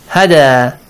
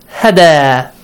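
Both takes have the same delivery.

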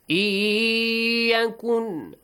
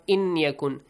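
First: The n merges into a nasal, lengthened y. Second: The n is pronounced separately before the y. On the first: The speaker calls it right. "Merge the noon sound to the ya, extension of two beats, and nasal sound" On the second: The speaker calls it wrong. "not inyakun"

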